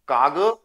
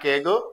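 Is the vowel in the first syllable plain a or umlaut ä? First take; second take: plain a; umlaut ä. First: The first vowel is a plain a sound. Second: The first vowel is an e-like umlaut sound. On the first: "बिना umlaut" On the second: "umlaut के"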